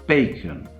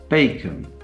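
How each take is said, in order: No difference in how they are said.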